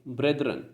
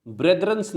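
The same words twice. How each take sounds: First: ब्रेदरन said softly with no final s; quiet correcting ब्रेदरन; correct form. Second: Said in the usual way. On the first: Shown as a demonstration. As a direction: end ब्रेदरन cleanly on the n, no s. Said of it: "ब्रेदरन्स नहीं बोलेंगे". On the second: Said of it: "नहीं बोलेंगे".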